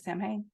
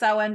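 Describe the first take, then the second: First: It is said letter by letter, as spelled. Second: It is said in a traditional, non-spelled way. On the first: This helps with remembering the spelling. "in my head I say Sam Hain, just so I know how to spell it correctly" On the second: This is how the holiday is actually said. "I learned it was Samhain before I ever learned how to spell it"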